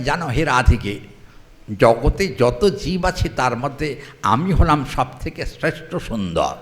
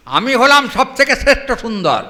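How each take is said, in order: First: Said in the usual way. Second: হলাম stressed, the whole line ringing out higher and louder; proud boast. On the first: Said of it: "বললেন". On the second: Acted. Krishna boasts to the sakhis, a loud proud proclamation. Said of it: "Krishna বলছেন".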